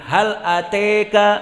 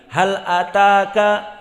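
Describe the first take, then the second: First: The vowel after the t leans toward 'e'. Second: The vowel after the t is an open 'a'. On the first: This is another Arabic dialect reading. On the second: This is the usual reading.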